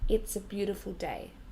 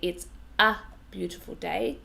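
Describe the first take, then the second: First: The article 'a' is unstressed and reduced. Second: The article 'a' is stressed and full. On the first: The speaker calls it right. "We say" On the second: The speaker calls it wrong. "I'm stressing this a. But of course, we don't say"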